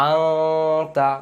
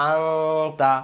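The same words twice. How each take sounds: Both takes have the same delivery.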